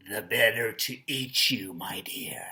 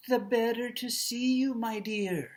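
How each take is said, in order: First: Low, menacing storybook wolf; scary wolf. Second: Put-on high-pitched old granny voice; old grandma. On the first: Teacher playing the wolf threatening to eat the child, scary low voice. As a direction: drop low and fade to a whispery threat. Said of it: "And it sounds scary". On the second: Teacher playing Grandma answering the child, high old-lady voice. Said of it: "she probably sounds old". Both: Shown as a demonstration.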